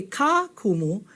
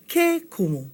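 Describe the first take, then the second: First: "ka kumu," said slowly and softly as the wrong form; wrong article. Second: "ke kumu." with ke stressed as the right form; correct article. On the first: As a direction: mark ka kumu as the mistake. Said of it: "you don't say". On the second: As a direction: land firmly on ke in ke kumu. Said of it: "you say". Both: Shown as a demonstration.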